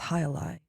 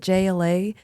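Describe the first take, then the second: First: The name begins with an H sound. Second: The name begins with a J sound. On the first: The speaker calls it right. "They're like, "It's High Lie."" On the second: The speaker calls it wrong. "I mispronounced it"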